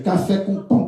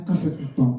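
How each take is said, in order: First: It is said loudly and energetically. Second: It is said quietly and flatly.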